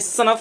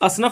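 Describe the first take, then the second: First: The word starts directly with the s sound. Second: An extra vowel comes before the s sound. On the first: The speaker calls it right. "ये सनफ है" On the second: The speaker calls it wrong. "असनफ नहीं होगा"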